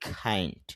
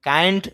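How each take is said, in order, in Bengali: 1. k এর সঙ্গে জোরালো বাতাসের ফুঁ আছে। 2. k টি সাধারণ, বাতাসের ফুঁ ছাড়া। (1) "আমি বলতেছি কাইন্ড। কেন ক না বলে খ সাউন্ড করতেছি?" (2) "কাইন্ড না বলে"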